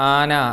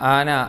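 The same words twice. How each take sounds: The two takes are said the same way.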